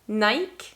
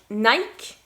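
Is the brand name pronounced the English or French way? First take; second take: French; French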